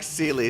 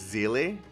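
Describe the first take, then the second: First: The name is said with English-style pronunciation. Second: The name is said with German pronunciation. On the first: The speaker calls it right. "I like Sealy so much better" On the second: The speaker calls it wrong. "Considering the name is actually German, Is that how you would actually pronounce it?"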